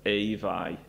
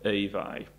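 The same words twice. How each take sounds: First: The vowel glides as a diphthong. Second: The same.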